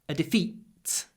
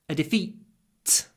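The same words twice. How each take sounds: The two takes are said the same way.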